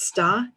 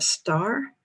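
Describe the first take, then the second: First: It is said in a New England accent. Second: It is said with the final r sounded.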